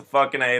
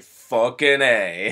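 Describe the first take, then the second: First: Said in the usual way. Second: Slow, laid-back action-hero delivery; slow and unbothered, like a tough guy; cool hero line. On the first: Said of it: "It's just a". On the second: Retold or imitated. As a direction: drag it out with cool swagger. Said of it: "Dolph Lundgren's just like".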